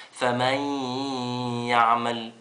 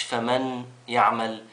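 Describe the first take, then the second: First: فمن يعمل read with the nun merged into the ya, famay-yaʿmal; correct merged reading. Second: فمن يعمل read slowly with a clear separate nun, famanu yaʿmal; wrong reading shown. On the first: Teacher to children, showing the right reading with the nun merged. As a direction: blend فمن straight into يعمل with no nun sound. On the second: Teacher to children, showing the mistake slowly with the nun said aloud. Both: Shown as a demonstration. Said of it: "مش فمن يعمل".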